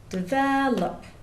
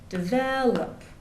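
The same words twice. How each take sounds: First: The stress is on the second syllable. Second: The stress is on the second syllable.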